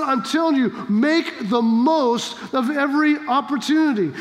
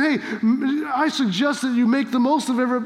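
First: Emphatic instruction, no option given; firm command. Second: Tentative, take-it-or-leave-it suggestion; easygoing, optional-sounding advice; casual suggestion. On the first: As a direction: make the most, landed as an order. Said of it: "This is a command". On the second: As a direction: offer it lightly as a mere suggestion. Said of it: "Paul's not saying". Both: Acted.

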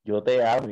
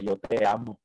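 First: Firm, forceful declaration of love; strong. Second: Gentler, restrained declaration; sublime. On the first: A voice in his head at the traffic light, strong. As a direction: demonstrate the strong inner voice. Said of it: "pero fuerte". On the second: The voice returns at the next light, more sublime. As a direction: say it tenderly, without force. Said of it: "pero ya como más sublime". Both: Retold or imitated.

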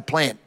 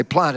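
First: "plant" with the short flat a of "ant"; Queensland pronunciation. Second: "plant" with a long ah, like "plahnt"; West Australian pronunciation. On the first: Back in Queensland, "plant" said with a short a. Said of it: "I'm back in Queensland, I can say plant". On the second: Dropping the West Australian habit, "plant" with a long ah. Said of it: "I don't have to say plant anymore". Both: Shown as a demonstration.

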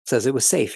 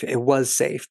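First: Said in the usual way. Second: "was" leaned on, the rest light; stress on was. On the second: Shown as a demonstration. Recapper insisting the situation "was" safe, stressing "was".

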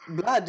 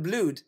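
First: "blood" with a short uh vowel. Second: "blood" with a long oo vowel. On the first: Questioning why we say it so, "blood" with short uh. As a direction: say "blood" to rhyme with mud. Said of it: "why do you say blood". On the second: Proposing the spelled-out way, "blood" with long oo. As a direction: say "blood" to rhyme with food. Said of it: "instead of blood". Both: Shown as a demonstration.

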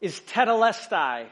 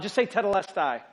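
First: Tetelestai said slowly as teh-teh-LES-tie; tetelestai, slow and deliberate; pronouncing tetelestai. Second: Tetelestai said again as a congregation prompt. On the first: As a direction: spell out tetelestai in careful Greek syllables. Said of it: "The Greek word". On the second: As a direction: lead the room in tetelestai. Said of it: "Just say that word, all of us out loud". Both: Shown as a demonstration.

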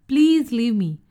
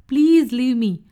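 First: Softer pleading. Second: Pleading. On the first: Rabbit begging the leopard again, softer plea. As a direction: beg once more, easing off. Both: A narrator's reading. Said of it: "Oreo pleaded".

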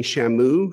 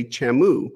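First: Said in the usual way. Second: "chamu" with a hard CH in place of SH; accented pronunciation. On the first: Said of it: "Instead of saying shamu". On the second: Shown as a demonstration. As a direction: say "chamu" for shamu, as in a Mexican accent. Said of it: "she'll say chamu".

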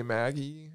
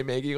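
First: "Maggie" said the standard way, short a; standard pronunciation. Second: "Maggie" said as MAY-ghee; habitual mispronunciation. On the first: Host showing how they don't say it, standard "Maggie". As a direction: say "Maggie" with the vowel of "mag". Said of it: "I don't say Maggie". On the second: Host showing their own odd habit, "Maggie" as MAY-ghee. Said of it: "Like, I always say Maggie". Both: Shown as a demonstration.

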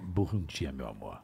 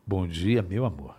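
First: Deep, soft seductive purr; sultry voice. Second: Low, soft sultry greeting; seductive voice. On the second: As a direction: whisper it close and seductive. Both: Shown as a demonstration. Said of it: "Você poderia deixar?".

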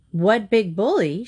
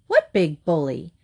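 First: Mild indignant shriek, pitch jumping on bully; understated storybook shriek; mock shriek. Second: Innocent. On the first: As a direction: echo it back in outrage. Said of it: "shrieked Missus Eager". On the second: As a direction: ask as if you have no idea. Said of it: "asked Missus Semicolon innocently". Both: A narrator's reading.

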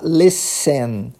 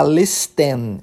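First: "listen" slowly as "les-sen", with no T; silent T. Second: "listen" with an audible T, "les-ten"; T wrongly sounded. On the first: Teacher showing the right way, slow with silent T. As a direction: say "listen" in two slow syllables, dropping the T. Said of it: "Como se o T não existisse". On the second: Teacher showing the mistake to avoid, T sounded. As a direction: say "listen" in two syllables, pronouncing the T. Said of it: "Ao invés de falar". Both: Shown as a demonstration.

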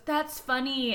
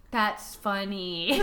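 First: "That's funny" said instead of a laugh; deadpan non-laugh. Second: "That's funny" drawn out slow, lower, no laugh; Mandy Moore's character. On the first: Imitating a sitcom character's non-laugh, deadpan. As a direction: state "That's funny" where a laugh belongs. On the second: Imitating a sitcom character who never laughs, slow deadpan. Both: Retold or imitated. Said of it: "always goes, "That's funny," instead of laughing".

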